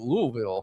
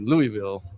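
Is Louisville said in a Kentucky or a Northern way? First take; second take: Kentucky; Northern. First: It is said in a slurred Kentucky way. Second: It is said in a Northern US way. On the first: This is how locals from Kentucky say it. "you guys say it, ... you're like Lou- Louisville" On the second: This is how outsiders from the North say it. "us Northerners, we say Louisville"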